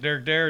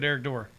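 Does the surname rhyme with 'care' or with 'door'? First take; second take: care; door. First: The surname is said rhyming with care. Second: The surname is said rhyming with door. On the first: "I say Derek Dare" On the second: "it was Dore"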